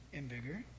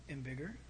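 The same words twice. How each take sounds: The two takes are said the same way.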